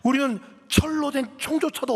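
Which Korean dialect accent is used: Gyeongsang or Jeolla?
Jeolla. It is spoken in a Jeolla dialect accent. "전라도 사투리 썼다면 이랬을 것 같아요"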